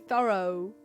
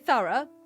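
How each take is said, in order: First: It is said in an American accent. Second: It is said in a non-American accent. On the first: "you say thorough, which doesn't make any sense" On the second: "we say thorough"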